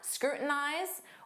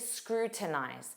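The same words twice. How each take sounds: First: The middle T is a soft flap. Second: The middle T is clearly pronounced. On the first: "drop that T and form a flap T" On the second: "more enunciated"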